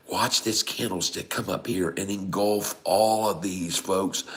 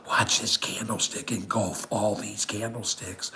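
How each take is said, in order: First: Said in the usual way. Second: Soft conspiratorial whisper. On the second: Shown as a demonstration. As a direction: lean in and whisper the tip. Whispered, then repeated in plain voice.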